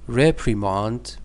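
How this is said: It is said with a British pronunciation. "British pronunciation"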